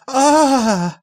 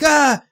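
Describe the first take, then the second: First: It sounds odd and not like a scream. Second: It sounds like a frightened scream.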